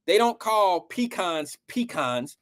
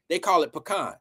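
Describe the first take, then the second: First: Said in the usual way. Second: Pecan said the local way, as the people down there say it; pecan in the local Southern way; local pecan pronunciation. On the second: Shown as a demonstration. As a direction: give pecan the regional pronunciation.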